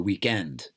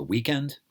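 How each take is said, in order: First: "weekend" as week-END; English-style "weekend", second syllable stressed. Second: "weekend" as WEEK-end; American-style "weekend", first syllable stressed. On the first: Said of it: "Stress is on the second syllable". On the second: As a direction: punch WEEK in "weekend", let end fall light. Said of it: "The stress is on the first syllable". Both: Shown as a demonstration.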